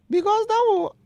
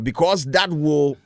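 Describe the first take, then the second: First: It is said in an imitated feminine voice. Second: It is said in his normal voice.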